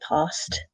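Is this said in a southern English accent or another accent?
southern English. It is said in a southern English accent. "other people maybe say past, uh, but that's more kind of the south of England"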